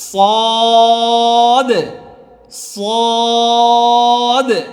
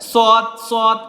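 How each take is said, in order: First: The vowel is stretched out and drawn. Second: The vowel is short and clipped. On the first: The speaker calls it right. "একটু টান দিয়ে সুন্দর করে" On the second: The speaker calls it wrong. "এমন না"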